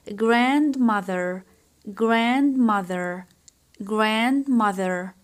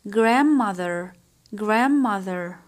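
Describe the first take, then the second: First: The d sound is clearly pronounced. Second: The d sound is left out.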